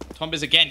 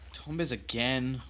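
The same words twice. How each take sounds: First: It sounds excited, like an exclamation. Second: It sounds worried, like a doubtful question.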